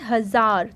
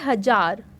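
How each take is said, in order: First: The middle consonant is a z sound. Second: The middle consonant is a plain j sound. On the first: "लेकिन हम पढ़ते हैं हजार" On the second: "ये लिखा है हजार"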